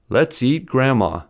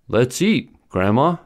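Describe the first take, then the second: First: There is no pause after 'eat'. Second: There is a brief pause after 'eat'. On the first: Grandma is the one being eaten. The speaker calls it wrong. "The first sentence is spoken without a pause" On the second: Grandma is the person being spoken to. The speaker calls it right. "spoken with a brief pause after eat, conveys the correct meaning"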